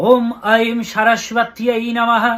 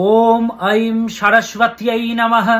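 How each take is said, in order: No difference in how they are said.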